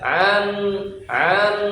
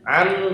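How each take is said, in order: First: The vowel is stretched out before the n. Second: The vowel goes straight into the n, short. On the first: The speaker calls it wrong. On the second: The speaker calls it right.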